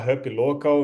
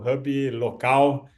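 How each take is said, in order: First: The name is pronounced with English sounds. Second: The name is pronounced with Portuguese sounds. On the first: "em inglês" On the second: "para pronúncia de português"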